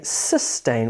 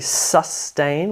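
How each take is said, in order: First: The first vowel sounds like 'eh'. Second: The first vowel sounds like 'uh'. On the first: "sustain with an E" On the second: "sustain with a U"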